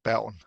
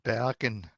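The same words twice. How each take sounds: First: It is said with a standard Danish accent. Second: It is said with a standard Norwegian accent. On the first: "in standard Danish, I would say" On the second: "in standard Norwegian"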